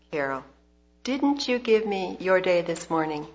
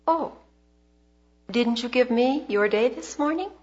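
First: Gently repeated question, settling downward; quiet, gentle. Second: Gently probing question, lifting at the end; quiet, gentle. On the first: God asks Carol once more, quiet and gentle. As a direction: repeat it patiently, letting the pitch fall. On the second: God gently questions Carol's heart, quiet and gentle. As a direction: ask it softly with a higher, rising lilt. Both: Retold or imitated. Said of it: "he said very quietly and gently".

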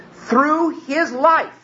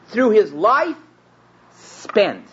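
First: Life drawn out slow and high, trailing off; stressing life. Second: Through his life with life lifted, then spent set apart after a pause; adding spent. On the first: Preacher to congregation, slow drawn-out stress on life. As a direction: through his life, leaning long on life. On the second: Preacher completing the phrase, pausing before spent. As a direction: give spent its own beat. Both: Shown as a demonstration. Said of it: "You can't say life, just life".

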